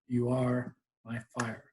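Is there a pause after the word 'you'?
no. There is no pause after 'you'.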